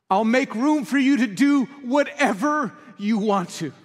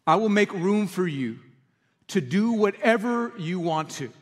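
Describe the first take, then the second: First: High, loud, slow proclamation; declared with conviction. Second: Slow, gentle reading of the lyric; quiet slow quote of the lyric. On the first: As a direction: proclaim the lyric as a full surrender. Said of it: "That's what it means to say". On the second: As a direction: let the words land softly, unhurried. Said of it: "to sing those lyrics". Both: Shown as a demonstration.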